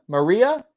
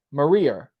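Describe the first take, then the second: First: "Maria" higher, rising like a question; trying the rhyme. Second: "Maria" falling, with an r on the end; trying the rhyme. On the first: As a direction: test "Maria" with an open "-a", questioning. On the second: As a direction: try "Maria" as "ma-REE-er", settling downwards. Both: Shown as a demonstration. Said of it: "I figured out the rhyme".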